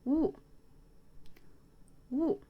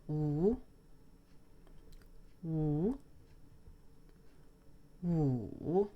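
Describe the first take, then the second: First: Wu dropping sharply from high; sharp falling fourth-tone Wu. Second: Wu rising from low to mid; rising second-tone Wu. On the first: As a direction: snap each Wu down hard from the top. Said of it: "The last one is sharp". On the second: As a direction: lift each Wu upward like a question. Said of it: "The second one goes up". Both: Shown as a demonstration.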